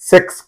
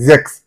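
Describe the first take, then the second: First: The word begins with an s sound. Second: The word begins with a z sound. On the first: The speaker calls it wrong. "సెక్స్ కాదు అది" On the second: The speaker calls it right.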